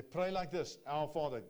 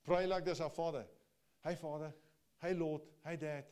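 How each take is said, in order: First: Loud ringing proclamation, higher; preaching loudly. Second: Loud ringing call, pitched up; preaching loudly. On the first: Preacher calling out Jesus' words to the congregation, loud. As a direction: proclaim it to the whole room. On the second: Preacher repeating the prayer's opening to the church, loud. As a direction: call it out with fervour. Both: Acted.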